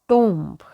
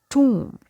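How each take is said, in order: First: The vowel sounds like 'oh', with the b heard. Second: The vowel sounds like 'oo', with the b silent. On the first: The speaker calls it wrong. "it's not tomb" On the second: The speaker calls it right. "letter O has long O sound like we have in a school"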